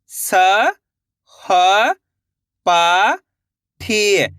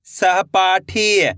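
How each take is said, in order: First: स, ह, पा, ठी held, with gaps; syllable by syllable. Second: सहपाठी joined into one slow word; blended word. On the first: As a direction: sound out स, ह, पा, ठी one by one. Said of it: "एक एक अक्षर का उच्चारण करके". (स, ह, पा, ठी अलग-अलग) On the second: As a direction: say सहपाठी whole, drawn out. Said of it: "मिलके बन जाएगा". (सहपाठी मिलाकर, धीरे से) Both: Shown as a demonstration.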